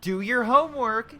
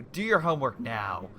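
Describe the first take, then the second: First: High, loud, slow mock parent order; imitating a parent telling a kid off. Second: A hint of a stern parent. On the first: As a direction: bark it like an exasperated mom. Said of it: "like telling a five-year-old". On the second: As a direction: put your foot down on now. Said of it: "It's like yelling at them".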